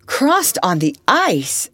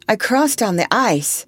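First: Slow, loud, incredulous echo; astonished exclamation. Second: Higher, earnest statement; earnest answer. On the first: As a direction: exclaim it slowly, stretching ICE in amazement. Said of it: "exclaimed everyone". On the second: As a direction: state it earnestly, falling at the end. Eliza answers how she came. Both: A narrator's reading.

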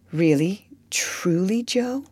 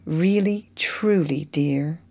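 First: Breathless whisper rising; whispered question. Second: Gentle sad confirmation. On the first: Laurie asking Joe in a hushed whisper. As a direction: barely dare to ask it. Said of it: "He stopped short ... put his question". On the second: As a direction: let the answer sink gently. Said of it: "with a look that she did not soon forget". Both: Acted.

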